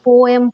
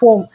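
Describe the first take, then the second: First: The word is said with two syllables. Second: The word is said with one syllable. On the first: The speaker calls it wrong. "நிறைய பேர் கேட்டிருந்தீங்க ma'am போயம் போயம்னு" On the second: The speaker calls it right. "அதோட correct pronunciation பார்த்தீங்கன்னா போம்"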